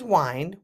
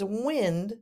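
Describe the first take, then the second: First: The vowel is a long I, as in 'mind'. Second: The vowel is a short I, as in 'win'. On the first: It means to turn or relax. "with a long I" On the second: It means the movement of air. "with a short I, meaning the movement of air"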